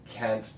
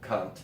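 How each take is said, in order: First: It is said in an American accent. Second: It is said in an English accent. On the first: "In America, we pronounce it Kent"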